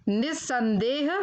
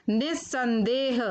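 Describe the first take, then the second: The two takes are said the same way.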